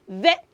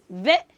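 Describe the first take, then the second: Both takes have the same delivery.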